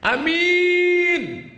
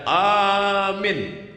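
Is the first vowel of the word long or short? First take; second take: short; long. First: The first vowel is kept short. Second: The first vowel is drawn out long. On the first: Honest. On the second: Believe it.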